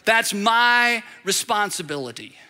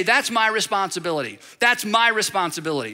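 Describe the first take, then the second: First: MY drawn out slowly, then a measured "responsibility"; slow, deliberate emphasis on "my"; stress on MY. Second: Said in the usual way. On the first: Shown as a demonstration. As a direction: lean long and hard on "my". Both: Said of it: "we're gonna emphasize my".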